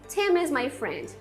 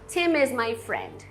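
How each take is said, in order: First: The m is linked into the next word. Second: The m is linked into the next word.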